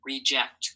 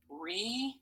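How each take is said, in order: First: Said in the usual way. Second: "reject" as two slow syllables, long pause between; split into syllables. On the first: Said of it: "Say it". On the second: Shown as a demonstration. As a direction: say "reject" slowly as "re", pause, "ject". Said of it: "Two syllables".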